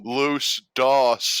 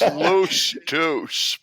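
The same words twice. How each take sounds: First: The vowel in 'Dos' sounds like 'boss'. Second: The vowel in 'Dos' sounds like 'dose'. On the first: The speaker calls it wrong. "you said Los Dos. and It DOS is disk operating system" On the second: The speaker calls it right. "it's Los Dos"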